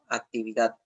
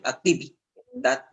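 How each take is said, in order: First: The stress falls on the last syllable. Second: The stress falls before the last syllable. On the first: The speaker calls it right. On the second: The speaker calls it wrong. "Tú no dices actividad"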